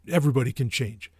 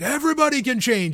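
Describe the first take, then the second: First: It is said quietly, almost under the breath. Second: It is yelled out loudly. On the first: He says it to himself and walks off. "he says it like almost under his breath. He's just like" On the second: He declares it to a cheering crowd. "he like yells it out. He's like"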